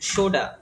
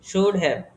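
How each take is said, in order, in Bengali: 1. শব্দ দুটো মিশে একটি ছোট, সংক্ষিপ্ত শব্দ হয়ে যায়। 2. দুটো শব্দই পূর্ণভাবে আলাদা আলাদা করে বলা হয়। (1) "should have কে আমরা কি বলবো?" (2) "তারপরে দেখেন should have"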